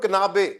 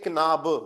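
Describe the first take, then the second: First: The final vowel is a full 'ay' sound. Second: The final vowel is a weak 'uh' sound. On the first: The speaker calls it wrong. "एक मैं बोल रहा हूँ किनाबे" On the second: The speaker calls it right. "जब भी लास्ट में आएगा अ का साउंड आना चाहिए"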